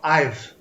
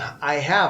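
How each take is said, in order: First: The word have is contracted onto I. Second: The word have is pronounced in full. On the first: "eles falam I've" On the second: "ao invés de eles falarem I have"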